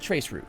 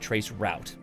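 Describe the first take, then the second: First: The word is said a non-American way. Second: The word is said the American way. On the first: The speaker calls it right. "so I call it traceroute, like it's supposed to be" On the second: The speaker calls it wrong. "I know us Americans are supposed to pronounce it trace route"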